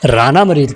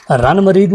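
First: राना मरीद with a long open first syllable, raa-na mureed; corrected word. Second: रन मरीद said as two short clipped words, ran mureed; misheard word. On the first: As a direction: stretch राना into two full syllables. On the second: Husband repeats wife's mishearing, short रन मरीद. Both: Retold or imitated. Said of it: "रन मरीद नहीं".

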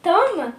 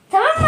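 First: Said in the usual way. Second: Tamam mı with mı jumping up high; high rising question. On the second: Real, not acted. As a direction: ask Tamam mı rising sharply on mı. Same question asked twice. (Tamam mı, mı yüksek ve yükselen)

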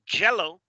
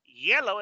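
First: YELLOW said as "jello"; hard J. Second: YELLOW with a smooth gliding Y; soft Y. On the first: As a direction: punch the J to make JELLO, the gelatine. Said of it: "es gelatina". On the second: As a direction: model YELLOW, the colour, from an ee-glide. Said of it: "Yellow es amarillo". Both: Shown as a demonstration.

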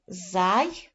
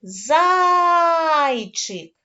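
First: ЗАЙЧИК split into зай and чик with a long pause; ЗАЙЧИК broken slowly into syllables. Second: ЗАЙЧИК called out high and loud, ЗАЙ held very long; calling out. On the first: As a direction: sound out ЗАЙЧИК in two separate pieces. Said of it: "поділимо на склади". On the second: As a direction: holler ЗАЙЧИК, stretching the first syllable. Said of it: "Гукаємо це слово". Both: Shown as a demonstration.

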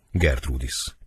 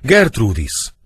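First: Said in the usual way. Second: Loud, high cry of the name; acted anguished shout; horrified stage howl. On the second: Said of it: "Ordítva rogy mellé, midőn meglátja".

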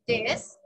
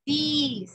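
First: "this" said "dess", short E vowel. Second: "this" said as "these", long drawn EE. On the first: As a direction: give "this" a short Spanish E. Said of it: "como con una E". ("this" como con una E, "des") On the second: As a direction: hold the vowel of "this": "deees". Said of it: "Es parecida a esta". ("this" con una I larga, "diis") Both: Shown as a demonstration.

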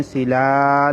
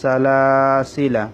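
First: "সিলা" with final laa stretched; written long form. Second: Slow "সালাসিলা", long middle laa, short ending; correct recitation. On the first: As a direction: drag out the ending of "সিলা". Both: Shown as a demonstration. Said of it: "আলিফটা পড়া হবে না".

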